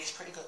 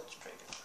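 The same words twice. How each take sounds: First: Said in the usual way. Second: "It's pretty good" whispered, no voice at all. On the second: Shown as a demonstration. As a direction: breathe it out as a secret whisper. Repeat of line 99 whispered.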